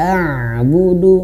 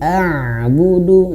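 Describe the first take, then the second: First: The ain sound flows on slightly before continuing. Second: The same.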